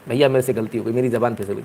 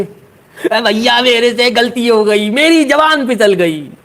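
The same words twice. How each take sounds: First: Said in the usual way. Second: High, slow, put-on pleading voice; hammed-up whining apology, higher; whiny apology. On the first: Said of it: "आ गए". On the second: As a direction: beg forgiveness like a caught kid. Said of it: "कैसे?".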